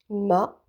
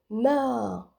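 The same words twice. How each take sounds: First: The vowel is short. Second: The vowel is long. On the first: "avec les voyelles courtes" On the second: "avec les voyelles longues"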